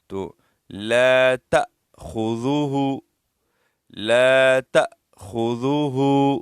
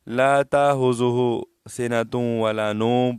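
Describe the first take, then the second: First: لا تأخذوه slowly, with the hamza caught sharply; correct recitation. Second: لا تأخذه سنة ولا نوم without the hamza catch; reading it the usual mistaken way; common wrong reading. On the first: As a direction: stretch لا and catch the hamza. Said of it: "اس طرح پڑھیں گے". (ہمزہ کو جھٹکے سے ادا کریں) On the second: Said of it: "اکثر لوگ غلط پڑھتے ہیں". (عام غلط پڑھائی) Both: Shown as a demonstration.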